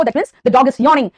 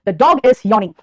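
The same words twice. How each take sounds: First: Slow model sentence. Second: Said in the usual way. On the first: Shown as a demonstration. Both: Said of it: "ठीक है बेटा".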